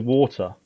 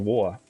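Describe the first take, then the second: First: The T in the middle is clearly pronounced. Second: The T in the middle is left out. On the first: "I will say water" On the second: "She'll go water. She doesn't pronounce the T"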